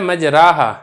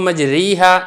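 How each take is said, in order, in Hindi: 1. र के बाद का स्वर लंबा खुला 'ah' है। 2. र के बाद का स्वर लंबा 'ee' है। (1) "लेकिन इसको मजराहा नहीं पढ़ा जाता" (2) "आपने इसको मजरीहा ये भी नहीं पढ़ना"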